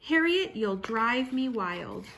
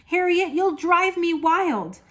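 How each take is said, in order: First: Said in the usual way. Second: Higher, louder exasperation short of yelling; exasperated mother. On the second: A narrator's reading. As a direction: let the frustration rise without shouting. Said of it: "Her mother didn't like to yell".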